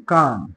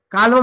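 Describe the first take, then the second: First: "काम" with no L before the M; low, soft "काम" for calm; silent L. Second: "काल्म" with the L sounded; wrong pronunciation. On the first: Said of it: "काल्म म्हणायचं नाही". ("काम", ल न उच्चारता) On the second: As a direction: put an L before M in "काल्म". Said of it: "म्हणायचं नाही". ("काल्म", ल उच्चारून) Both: Shown as a demonstration.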